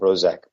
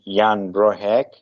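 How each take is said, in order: First: The surname's last syllable starts with a z-like sound. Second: The surname's last syllable starts with an h-like sound. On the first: The speaker calls it wrong. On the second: The speaker calls it right. "I think the pronunciation should be"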